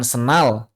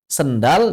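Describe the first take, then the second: First: The d sound after the n is dropped. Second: The d sound after the n is kept.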